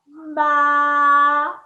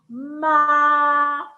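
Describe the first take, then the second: First: The pitch stays high and level. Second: The same.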